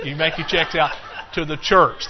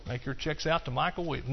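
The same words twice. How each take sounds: First: Louder, laughing as he sets the joke right and leans on "church"; laughing correction. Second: Soft deadpan joke, like a sly salesman slipping in his own name; mock salesman plug. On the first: Real, not acted. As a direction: correct yourself through a laugh and hit "church". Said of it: "No, you". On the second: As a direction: say it quietly and straight-faced as a gag. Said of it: "like a car salesman".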